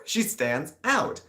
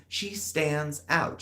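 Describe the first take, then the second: First: She stands out, slow, rising with a laugh; laughing repeat. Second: She stands OUT said higher and slow; slow, drawn-out emphasis. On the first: Repeating the point through a laugh. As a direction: say it again, amused. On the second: Repeating the point about flying, drawn out. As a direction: lean on out, slowly. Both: Shown as a demonstration.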